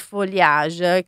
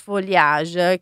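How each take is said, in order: First: The word is pronounced the French way. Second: The word is pronounced the French way.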